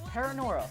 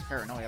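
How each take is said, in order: First: The ending is said with an r sound. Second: The ending is said with an oy sound. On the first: The speaker calls it wrong. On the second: The speaker calls it right.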